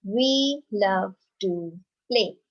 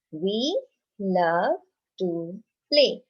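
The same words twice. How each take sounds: First: Slow, deliberate read-aloud; teacher modelling a statement; slow model reading. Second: Even slower echo of the line; teacher repeating a sentence for the class. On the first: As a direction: read it out slowly for children to copy. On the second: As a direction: repeat it slowly for the children. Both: Shown as a demonstration. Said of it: "let's read another sentence".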